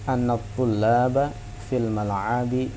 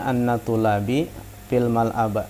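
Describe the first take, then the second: First: The first word ends in a, the last in i. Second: The first word ends in i, the last in a. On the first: The speaker calls it right. "kita bisa mendapat baris yang tepat pada kalimat ini" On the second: The speaker calls it wrong. "tidak boleh bacaannya"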